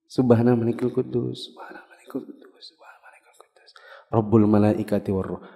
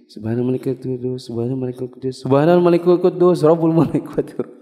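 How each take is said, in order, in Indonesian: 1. Baris terakhir 'Rabbul' diucapkan paling nyaring. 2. Baris ketiga 'subhanal' diucapkan paling nyaring. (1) "Rabbul malaikati warruhnya baru nyaring suaranya" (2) "antum salah tempat nyaringnya tadi itu. Antum gini"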